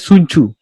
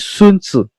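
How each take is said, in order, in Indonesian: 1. Namanya diucapkan sesuai tulisannya. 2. Namanya diucapkan sesuai pelafalan aslinya. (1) "Kalau misalnya kita bacanya Sun Tzu" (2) "pengucapan aslinya adalah Sun Tzu"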